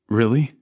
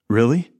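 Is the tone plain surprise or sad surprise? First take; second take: sad surprise; plain surprise. First: It sounds surprised and also sad. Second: It sounds surprised, without sadness. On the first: The news was unexpected and upsetting. "But you're surprised but sad" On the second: The news was unexpected. "We're surprised because you didn't know anything about that"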